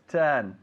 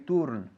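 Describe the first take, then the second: First: The vowel sounds like a native English 'ur'. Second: The vowel sounds like a Spanish 'u'. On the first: The speaker calls it right. "it's turn" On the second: The speaker calls it wrong. "We don't say turn"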